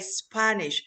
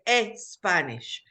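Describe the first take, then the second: First: The word begins directly with the S sound. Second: An extra vowel sound comes before the S. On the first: The speaker calls it right. "They don't say Spanish" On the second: The speaker calls it wrong. "they say e Spanish"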